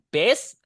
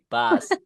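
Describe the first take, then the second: First: "bus" with an e sound, like "bess"; mispronounced "bus" with an e vowel; wrong vowel in bus. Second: "bus" with an open A, like "bas"; "bus" sounded as "bas". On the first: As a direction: say "bus" as "bes". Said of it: "jangan bus, tapi bus". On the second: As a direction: say "bus" with the U read as A. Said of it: "Bus dibaca A". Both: Shown as a demonstration.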